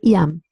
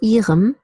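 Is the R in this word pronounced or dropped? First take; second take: dropped; pronounced. First: The R is dropped. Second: The R is pronounced clearly. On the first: "but I say ihrem" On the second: "You could say ihrem"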